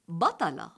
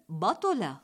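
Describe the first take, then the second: First: The second consonant is followed by an a vowel. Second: The second consonant is followed by a u vowel. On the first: The speaker calls it right. "بفتح الطاء" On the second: The speaker calls it wrong. "بضمها"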